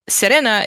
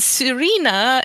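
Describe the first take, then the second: First: The name is said the Romanian way. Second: The name is said the English way. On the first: "is the Romanian one" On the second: "is the English pronunciation"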